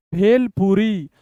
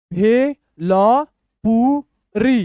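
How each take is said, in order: First: Said in the usual way. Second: Slow, widely separated syllables. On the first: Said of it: "speed पढ़ के बताऊंगा". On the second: Shown as a demonstration. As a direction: sound out each syllable for learners. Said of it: "तोड़ तोड़ के पढ़िए".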